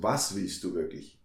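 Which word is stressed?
was. The stress is on was.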